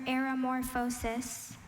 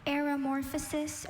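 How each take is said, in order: First: "aeromorphosis" repeated with a long O, -FOH-sis; alternate pronunciation. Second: "Aeromorphosis" repeated with ending -fuh-sis; first pronunciation. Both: Shown as a demonstration. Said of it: "Can you repeat the word".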